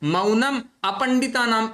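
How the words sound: The two words are split by a short break. The speaker calls it wrong.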